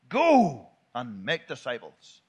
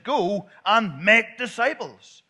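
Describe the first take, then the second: First: The stress falls on the word go. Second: The stress falls on the word make. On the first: Going is the main command. The speaker calls it wrong. "That's the wrong way to say it" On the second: Making disciples is the main command. The speaker calls it right. "That's the imperative. The making disciples is the imperative verb"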